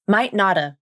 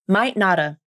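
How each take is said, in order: The two takes are said the same way.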